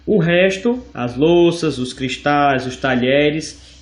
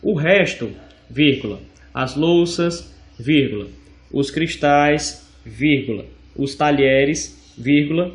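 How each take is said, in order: First: "O resto" lifted, then each item set apart by a pause; slow, measured "os talheres" after clear pauses; slow listing. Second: Name every comma as you dictate; reading the commas aloud. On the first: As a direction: read the list slowly, breaking at every comma. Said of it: "o resto mencionado na frase". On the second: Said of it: "faz a função de descrever". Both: Shown as a demonstration.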